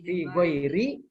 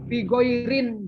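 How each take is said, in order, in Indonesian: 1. Kata kedua diakhiri tanpa bunyi n. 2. Kata kedua diakhiri dengan bunyi n tambahan.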